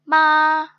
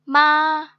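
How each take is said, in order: Both takes have the same delivery.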